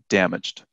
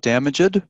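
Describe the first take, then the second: First: The ending joins the word with no extra syllable. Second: The ending is said as an extra syllable. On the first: The speaker calls it right. "try and pronounce it without saying the E" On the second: The speaker calls it wrong. "So not damaged"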